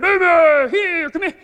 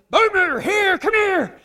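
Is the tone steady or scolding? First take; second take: steady; scolding. First: The call sounds steady and even. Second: The call sounds scolding and exasperated.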